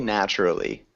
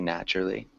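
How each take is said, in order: First: The word is said with all its syllables. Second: The word is said with syllables cut down. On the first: "you can say naturally, but it is a lot of syllables" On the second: "often it is cut down. So just be aware that people often say naturally"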